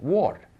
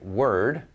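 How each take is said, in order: First: The vowel sounds like 'or', as in ward. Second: The vowel sounds like 'er', as in bird. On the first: "they'll say ward, W O R D, ward, because in their language, O is O" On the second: "if they see a word like word"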